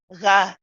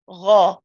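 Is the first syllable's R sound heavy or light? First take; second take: light; heavy. First: The first R sounds light and thin. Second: The first R sounds heavy and full. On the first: The speaker calls it wrong. "We don't want to be saying ra, ru, ri" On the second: The speaker calls it right. "it's the heavy R ending that we want when it's got a fatha"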